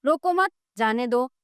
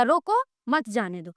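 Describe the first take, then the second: First: "रोको मत" together, a break, then "जाने दो"; pause after मत. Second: "रोको" alone, a break, then "मत जाने दो" falling low; pause after रोको. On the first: Teacher shows pupils it means let go, pausing after "मत". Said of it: "रोको नहीं बल्कि जाने दो". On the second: Teacher shows pupils it means stop them, pausing after "रोको". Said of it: "रोक लो, जाने नहीं दो". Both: Shown as a demonstration.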